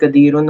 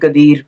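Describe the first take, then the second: First: The word ends with an added ending. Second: The word ends on the final consonant. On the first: It is the full written form. "जब हम मुसहफ खोलेंगे तो वहाँ पे कदीरुन होगा" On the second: It marks the end of a sentence. "वहाँ पे कदीर के ऊपर एंड हो रही है"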